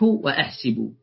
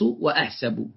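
First: The vowel after the s sound is i. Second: The vowel after the s sound is a. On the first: This is the most eloquent form. "الأفصح بكسرها" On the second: This is the most regular form. "والأقيس بفتحها"

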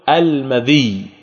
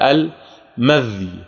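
First: The dh sound takes i, ending in doubled y. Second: The dh sound has no vowel after it.

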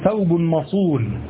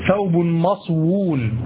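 First: A long u vowel follows the s, with no w. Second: A w sound follows the s. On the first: This is the form the rule requires. The speaker calls it right. "فتقول ثوب مصون" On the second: This form breaks the rule. The speaker calls it wrong. "وليس ثوب مصوون"

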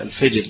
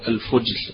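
First: The vowel after f is an 'i' sound. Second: The vowel after f is a 'u' sound. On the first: "بكسرها في لغتنا العامية" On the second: "بضم الفاء"

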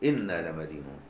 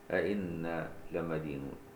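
First: The phrase begins with one glottal stop. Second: The phrase begins with two glottal stops. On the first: The phrase is read as a statement. "نافع يحذف الهمزة في الموضع الثاني" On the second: The phrase is read as a question. "ابن عامر يحذف الهمزة الأولى"

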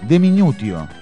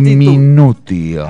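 First: The word is said at a normal pace. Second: The word is said slowly and deliberately. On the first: The speaker calls it wrong. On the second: The speaker calls it right.

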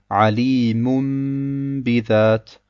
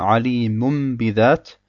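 First: The nasal m before the b is held long. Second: The nasal m before the b is short. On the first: The speaker calls it right. "wir verlängern diesen Iqlabe und sagen" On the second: The speaker calls it wrong. "und nicht nur ... Das wäre dann ohne einer zusätzlichen Runna"

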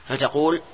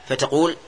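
Both takes have the same delivery.

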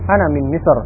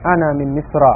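First: The word stops short without the vowel ending. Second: The word ends with a full vowel ending.

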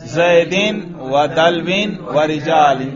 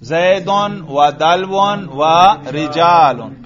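First: Each word ends with the vowel i plus n. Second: Each word ends with the vowel u plus n. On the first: The words are in the genitive case. "تینوں پر جر پڑھو" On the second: The words are in the nominative case. "تینوں پر رفع پڑھو"

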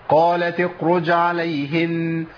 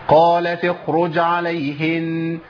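No difference in how they are said.

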